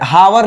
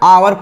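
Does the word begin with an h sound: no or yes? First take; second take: yes; no. First: The word begins with an audible h sound. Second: The word begins directly with a vowel sound. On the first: The speaker calls it wrong. "हावर लिखा हुआ है" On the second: The speaker calls it right. "एच इसमें silent है, इसको आवर पढ़ते हैं"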